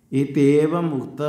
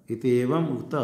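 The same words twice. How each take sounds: First: इत्येवम् उक्त recited a little louder, each syllable clear; recited phrase. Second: Said in the usual way. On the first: Shown as a demonstration. Teacher reciting the text for students to copy, clear. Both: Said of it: "इस प्रकार का ये एति उक्त शिक्षाध्याय".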